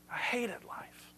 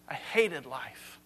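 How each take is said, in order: First: Slow, hushed whisper; barely voiced, drawn-out despair. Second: Low, soft, slow weary confession; quoting a man sick of living, subdued and slow; heavy despair. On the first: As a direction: whisper it slowly, like a bleak confession. Repeats Solomon's despair in whisper. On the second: Acted. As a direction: let the words sink, low and drawn-out. Quoting Solomon's despair, first take.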